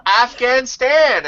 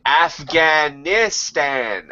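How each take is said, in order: First: Put-on high, slow, drawn-out child's answer; kid voice. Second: Very slow, drawn-out Afghanistan; father correcting his son, slow and weary; exasperated dad. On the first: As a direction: answer like an earnest little kid. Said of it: "I said". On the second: Retold or imitated. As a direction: spell it out to a dim child. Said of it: "he said".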